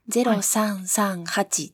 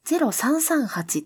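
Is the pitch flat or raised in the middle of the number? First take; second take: flat; raised middle. First: The pitch stays flat across the number. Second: The pitch is raised in the middle. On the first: "平板で言ったり" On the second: "山梨とか静岡の方が、0338 って、言ったりする / 中高型になる"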